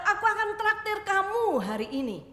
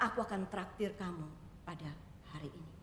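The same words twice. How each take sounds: First: Much higher and louder, a generous exclamation; cheerful offer. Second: Softer, settling into a kind hush; gentle offer. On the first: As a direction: call it out gladly to the child. Shop owner offers treat, exclaims. (tawaran riang, lebih tinggi dan keras) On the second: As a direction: say it quietly and kindly to the child. Owner's offer repeated gently. (tawaran lembut, lebih pelan) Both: Acted.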